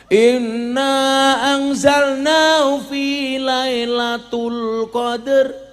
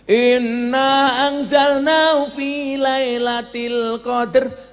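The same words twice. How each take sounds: First: The word before 'qadr' ends in 'tul'. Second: The word before 'qadr' ends in 'til'. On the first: The speaker calls it wrong. "Salah. ... imamnya baca tul" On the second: The speaker calls it right. "Yang ketiga baru bener"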